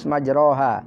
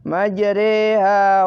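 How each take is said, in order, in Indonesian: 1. Vokal setelah r adalah a terbuka biasa. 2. Vokal setelah r condong ke e. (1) "Di sana kan ditulis majroha" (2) "tapi dimiringkan"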